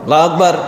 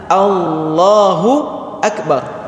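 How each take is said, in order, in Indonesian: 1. Bunyinya diucapkan dengan kurang jelas dan tidak utuh. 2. Setiap bunyi diucapkan dengan jelas dan utuh. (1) "Kadang-kadang ada yang" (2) "harus jelas"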